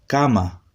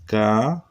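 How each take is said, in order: First: Said in the usual way. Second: Ca-ma split slowly into two held syllables. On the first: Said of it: "¿Cómo se escribe?". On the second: Shown as a demonstration. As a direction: sound out ca, pause, then ma. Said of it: "Se escribe". (ca-ma separado en sílabas, lentamente)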